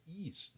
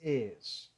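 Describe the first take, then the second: First: "is" as "ees", EE vowel with S; nonexistent pronunciation. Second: "is" as "ez", E vowel and Z; corrected pronunciation. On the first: Teacher rejects the usual mistake, "is" as "ees". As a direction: say "is" softly as "ees". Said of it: "Essa pronúncia is não existe". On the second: Teacher gives the existing form, "is" as "ez". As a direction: draw "is" toward "ez". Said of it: "é". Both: Shown as a demonstration.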